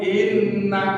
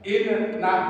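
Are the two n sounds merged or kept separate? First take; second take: merged; separate. First: The two sounds merge into one doubled n. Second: The two syllables are said apart, unmerged.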